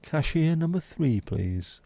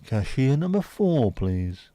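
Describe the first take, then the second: First: Higher, slow announcement; bingo voice cashier call. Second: Loud, slow caller announcement; bingo voice cashier call. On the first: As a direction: call the till number like a bingo caller. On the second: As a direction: call the next customer like bingo. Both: Pretend. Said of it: "Bingo voice for cashier number two".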